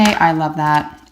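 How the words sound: It is said in an unconvincing, insincere tone. Nobody believes the speaker. The speaker calls it wrong. "And no one's going to believe you"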